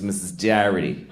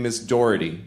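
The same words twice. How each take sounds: First: DOHERTY with an "ah" first vowel, like "Darrity"; Boston mispronunciation. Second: Said in the usual way. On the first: Retold or imitated. Teacher naming herself, Doherty mispronounced as "Darrity". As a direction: say Doherty the Boston way, "DAH-ritty". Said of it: "she thought her name was". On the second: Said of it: "but she thought her name was".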